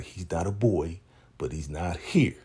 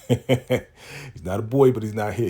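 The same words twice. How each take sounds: First: Said in the usual way. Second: Mock sassy reply. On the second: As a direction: stretch "boy" out with mock attitude. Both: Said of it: "repeats line with new delivery".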